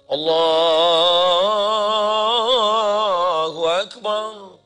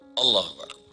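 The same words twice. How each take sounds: First: The phrase is drawn out long. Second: The phrase is said short and quick.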